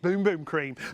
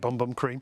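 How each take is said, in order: First: The vowel is a long 'oo' sound. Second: The vowel is a short 'uh' sound. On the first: The speaker calls it right. "the proper pronunciation apparently is" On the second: The speaker calls it wrong. "We call it"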